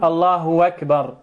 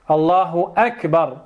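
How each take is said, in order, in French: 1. « akbar » commence par un son w. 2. « akbar » commence par une occlusive glottale. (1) "la taqul Allahu akbar" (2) "intuq bil hamza"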